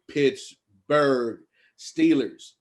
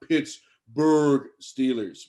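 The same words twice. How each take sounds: First: It is said in a normal speaking voice. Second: It is said in a deep, low voice.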